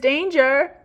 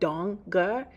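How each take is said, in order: First: The first vowel rhymes with stranger. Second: The first vowel sounds like the one in 'on'. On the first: The speaker calls it wrong. "He mispronounces my last name, which doesn't rhyme with stranger" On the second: The speaker calls it right. "It's actually Donger"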